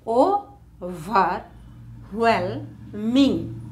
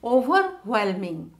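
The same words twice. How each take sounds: First: Overwhelming very slowly as o-ver-whel-ming; long gap after each beat of Overwhelming; syllable by syllable. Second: Said in the usual way. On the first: Shown as a demonstration. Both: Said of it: "how to divide words".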